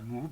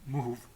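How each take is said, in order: First: The word ends with a b sound. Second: The word ends with a v sound. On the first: This is the Arabic pronunciation. "pas à l'arabe" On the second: This is the Kabyle pronunciation. "je vais le prononcer à la kabyle"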